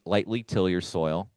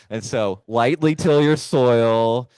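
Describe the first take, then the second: First: Said in the usual way. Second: "lightly till your soil" said slowly and louder, "till" leaned on; slow, emphatic repeat. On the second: Shown as a demonstration. Repeats the advice to the worried gardeners, slow and louder. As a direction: spell out "lightly" slowly and firmly so nobody digs deep. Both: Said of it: "How deep did you say to go?".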